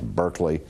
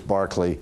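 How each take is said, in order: First: The first syllable sounds like 'bur'. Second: The first syllable sounds like 'bar'. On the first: This is how the university's name is said. "the university campus that we have in California that we pronounce Berkeley" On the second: This is how the bishop's name is said. "the pronunciation of his name is Barclay"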